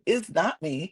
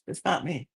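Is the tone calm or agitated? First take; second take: agitated; calm. First: It is said in an agitated, frazzled tone. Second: It is said in a calm, composed tone.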